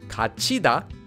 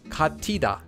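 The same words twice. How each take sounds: First: The middle consonant is a ch sound. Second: The middle consonant is a t sound. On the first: The speaker calls it right. "this word would be pronounced as 같이다" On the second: The speaker calls it wrong. "and not 같이다"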